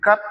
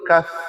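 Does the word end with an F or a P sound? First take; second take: P; F. First: The word ends in a closed-lip p sound. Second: The word ends in an open-lip f sound. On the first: The speaker calls it wrong. "kalau tuan-puan sebut rapat bibir" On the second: The speaker calls it right. "Jadi yang betulnya kaf"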